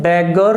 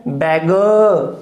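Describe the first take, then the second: First: Beggar with the final R sounded; wrong R ending. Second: Beggar ending in a drawn-out uh, R silent; schwa ending. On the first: Teacher shows students the wrong beggar, final R sounded. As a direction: pronounce the R closing beggar. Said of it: "नहीं बोलोगे". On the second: Teacher corrects students' beggar, R-less schwa ending. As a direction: stretch the last vowel of beggar and drop the R. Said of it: "beggar नहीं बोलोगे". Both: Shown as a demonstration.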